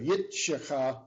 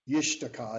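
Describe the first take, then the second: First: The t sound comes before the sh sound. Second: The t sound comes after the sh sound. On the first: The speaker calls it wrong. "instead of" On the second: The speaker calls it right. "It's easier to say"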